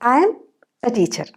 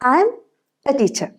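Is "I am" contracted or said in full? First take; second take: contracted; contracted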